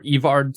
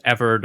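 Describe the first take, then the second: First: "Evard" with a long EE and full "ard"; alternative pronunciation. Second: "Everd" with a short E and unstressed second syllable; first pronunciation. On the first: Reviewer unsure of the spell's name, second option "Evard" as EE-vard. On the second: Reviewer unsure of the spell's name, first option "Everd" as EV-erd. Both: Shown as a demonstration. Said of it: "supposed to be pronounced Everd or".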